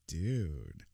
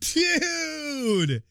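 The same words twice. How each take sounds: First: It sounds flirty. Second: It sounds excited.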